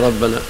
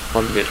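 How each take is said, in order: First: The word ends with an a vowel. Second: The word ends with an i vowel. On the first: It is the object of an implied 'I mean'. "ربنا أعني ربنا" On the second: It stands in apposition to the pronoun in 'from him'. "ربنا بدلا من الهافي عنه"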